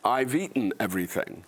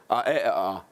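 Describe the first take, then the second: First: Said in the usual way. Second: Lazy Dundonian dialect, vowels only; Dundonian accent. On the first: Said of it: "I'll give you an example. ... if you say". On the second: Shown as a demonstration. Actor showing the audience his hometown speech, Dundonian accent. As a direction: say it in broad Dundonian with consonants dropped. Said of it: "where I come from, you would say".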